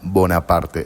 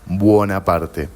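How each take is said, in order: First: The first syllable is a plain 'bo'. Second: The first syllable has a 'bwo' glide. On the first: This is the name he took later as ruler. "con la O" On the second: This is the family name he was born with. "es con U"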